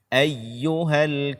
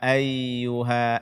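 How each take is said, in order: First: The doubled y is said with slight pressure. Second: The doubled y is said flat, without pressure. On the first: The speaker calls it right. "sedikit ditekan" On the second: The speaker calls it wrong. "Tidak boleh kita baca"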